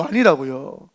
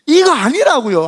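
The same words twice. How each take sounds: First: Said in the usual way. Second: Much higher, louder, slowed insistence; emphatic denial. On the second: Real, not acted. Pastor insisting to the congregation, loud. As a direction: hammer the denial.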